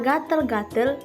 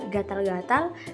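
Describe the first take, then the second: First: The second syllable has an 'e' vowel. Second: The second syllable has an 'a' vowel. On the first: The speaker calls it wrong. "Bunyi yang digunakan penutur adalah bunyi vokal E" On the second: The speaker calls it right. "seharusnya bunyi vokal A"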